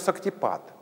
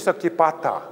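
First: The word ends without a final vowel. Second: The word ends with a final vowel. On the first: This is the Hindi form of the word. The speaker calls it wrong. "«шактипат» — это хинду, уже хиндуизированный вариант санскритского" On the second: This is the original Sanskrit form of the word. The speaker calls it right. "Правильно говорить «шактипата»"

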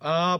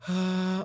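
First: The vowel is clean with closed vocal folds. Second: The vowel is airy with open vocal folds. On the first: "붙여서 내기도 하고" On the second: "성대를 벌려서 내기도 하고"

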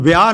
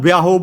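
First: The word ends without an added vowel. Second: The word ends with an added 'o' vowel. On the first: The speaker calls it right. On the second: The speaker calls it wrong.

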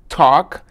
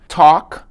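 The two takes are said the same way.

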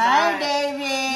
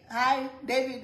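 First: It is said in a put-on, throaty voice. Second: It is said in a plain, natural voice. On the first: "They start talking in their throats" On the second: "like you call your husband David"

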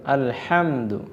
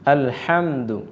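The two takes are said the same way.

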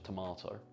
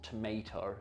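First: The middle vowel sounds like 'ah'. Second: The middle vowel sounds like 'ay'. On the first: The speaker calls it right. "That's how you say it" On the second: The speaker calls it wrong. "It's not tomato"

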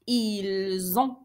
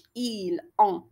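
First: Ils and ont are joined by a z sound. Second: Ils and ont are said separately, without a z. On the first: The speaker calls it right. "je fais la liaison et je dis ils ont" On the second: The speaker calls it wrong. "ما قلتش ils ont"

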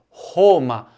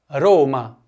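First: The R is made in the throat. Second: The R is made with the tongue tip. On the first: The speaker calls it wrong. "também tem o R na garganta" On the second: The speaker calls it right. "é só lembrar de fazer sempre essa pronúncia quando tiver um R em italiano, mesmo quando o R estiver no começo de uma palavra"

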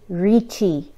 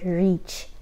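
First: It is said as two syllables, ending in 'chi'. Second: It is said as one syllable, like 'reach'. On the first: The speaker calls it right. "it is actually Riichi" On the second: The speaker calls it wrong. "I mispronounced it. I called it Reach"

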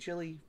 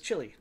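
First: It is said in the speaker's own American way. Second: It is said the way a British narrator says it.

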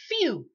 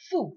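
First: The word is said with a 'you' vowel after the F. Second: The word is said with a plain 'oo' vowel after the F. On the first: The speaker calls it right. "it's almost like you're pronouncing the letter F and then you're saying you" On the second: The speaker calls it wrong. "It looks like foo"

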